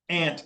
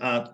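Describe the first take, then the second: First: The word sounds exactly like the insect 'ant'. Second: The word does not sound like the insect 'ant'. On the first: The speaker is not from the Northeast. "For everybody else, it's ant, like A N T" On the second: The speaker is from the Northeast. "like I do, I say aunt"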